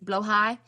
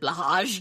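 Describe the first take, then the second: First: The first vowel sounds like 'blow'. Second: The first vowel sounds like 'blah'. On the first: The speaker calls it right. "I had to look up how to say it. It's blowhaj" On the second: The speaker calls it wrong. "which I would have said blahaj"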